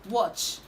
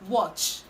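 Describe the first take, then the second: Both takes have the same delivery.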